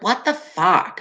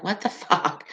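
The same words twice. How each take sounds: First: Put-on "What the fuck" in a light New York accent, vowel drawn toward "fawk". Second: Said in the usual way. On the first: Imitating her New York friend with a light New York accent. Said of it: "she'd always be like". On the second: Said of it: "I'm like".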